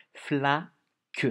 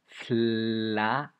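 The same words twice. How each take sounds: First: "Flaque" loud with the first syllable "fla" stressed and lengthened; louder "Flaque" with rising end; syllable emphasis. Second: "Flaque" louder, the first syllable "fla" drawn out and rising; stretched, stressed "Flaque". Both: Shown as a demonstration. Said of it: "écoutez bien la première syllabe".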